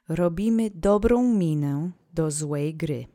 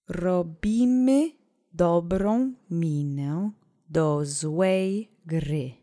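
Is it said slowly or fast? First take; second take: fast; slowly. First: It is said faster. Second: It is said slowly.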